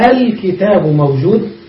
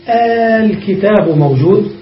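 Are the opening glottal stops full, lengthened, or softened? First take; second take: softened; lengthened. First: The first glottal stop is full, the second softened. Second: The opening vowel is drawn out into one long sound. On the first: "فالأولى محققة والثانية نصف" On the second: "تمد همزة الوصل ... فنقول الكتاب موجود للمد"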